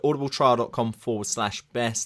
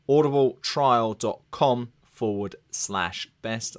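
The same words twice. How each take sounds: First: The address is spoken very quickly. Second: The address is spoken more slowly. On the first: "I said it very fast the first time there" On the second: "I said that a bit more slowly"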